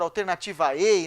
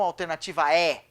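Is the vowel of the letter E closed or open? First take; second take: closed; open. First: The final E is a closed vowel. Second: The final E is an open vowel. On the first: It names the letter of the alphabet. The speaker calls it right. "que a gente fala" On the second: It sounds like the verb 'to be'. The speaker calls it wrong. "e não"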